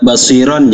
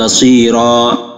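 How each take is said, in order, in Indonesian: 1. Kata ini berakhir dengan bunyi n. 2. Kata ini berakhir dengan vokal panjang. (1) "kalau disambung" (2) "kalau berhenti"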